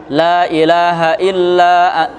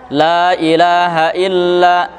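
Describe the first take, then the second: Both takes have the same delivery.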